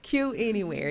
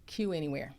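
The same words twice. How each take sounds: First: It is said louder. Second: It is said at normal, softer volume.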